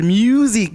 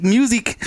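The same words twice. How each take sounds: First: Mexican accent. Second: Said in the usual way. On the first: Shown as a demonstration. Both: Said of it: "My Mexican accent coming out".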